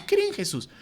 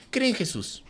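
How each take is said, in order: First: "Cree en Jesús" squeaked much higher and softer; ridiculing sign-holding evangelism with a squeaky voice; silly high mock. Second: Softer, lightly mocking chant of "Cree en Jesús"; mocking young Christians holding up signs; mock street preacher. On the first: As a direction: pitch "Cree en Jesús" up into a goofy falsetto. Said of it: "Pongan así". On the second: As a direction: say "Cree en Jesús" like a naive kid with a sign. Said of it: "evangelizar así con tu cartulina".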